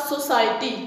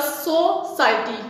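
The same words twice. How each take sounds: First: Said in the usual way. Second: सोसाइटी broken as so-ciety; a small gap after the so of सोसाइटी; split into syllables. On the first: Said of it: "ये हमारे पास सोसाइटी". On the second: Shown as a demonstration. Teacher dividing सोसाइटी for the class, in separated pieces. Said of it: "तो ये क्या है?".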